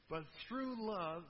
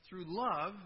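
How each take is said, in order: First: "through love" said slowly, leaning on "through"; slow stress on love. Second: "through love" repeated louder with "love" punched. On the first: Preacher reading Paul, slow weighty stress. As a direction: draw out "through love" deliberately. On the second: Preacher repeating Paul's words, louder emphasis. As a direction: hit "love" hard the second time. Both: Shown as a demonstration. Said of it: "repeats for emphasis".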